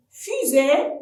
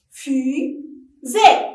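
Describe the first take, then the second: First: Said in the usual way. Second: "Fusée" as Fu, pause, sée; teacher's separated syllables on "Fusée". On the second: Shown as a demonstration. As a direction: clap out the two beats of "Fusée". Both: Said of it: "frappez-le en syllabe".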